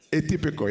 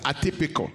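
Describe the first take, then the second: First: "Atypical" opening on an AY sound; corrected pronunciation. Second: "atypical" opening on a short AH sound; first-try pronunciation. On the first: Preacher fixing own accent for the congregation, corrected pronunciation. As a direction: say "Atypical" as ay-TIP-ee-kol. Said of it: "what is atypical, right?". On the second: Preacher trying a word on the congregation, first-try pronunciation. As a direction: say "atypical" as ah-TIP-ee-kol. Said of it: "my accent is bad, right?". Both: Shown as a demonstration.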